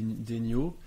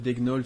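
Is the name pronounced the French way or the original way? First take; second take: French; original. First: The name is given a French pronunciation. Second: The name is given its original, non-French pronunciation. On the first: "il y a la française" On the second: "normalement ça doit être Degnold ou quelque chose comme ça"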